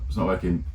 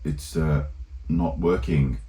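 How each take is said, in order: First: It is said in an ordinary English accent. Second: It is said in a put-on French accent. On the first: "instead of saying" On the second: "he like does that like French accent"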